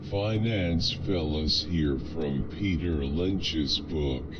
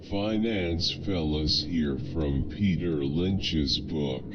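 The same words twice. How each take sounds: The two takes are said the same way.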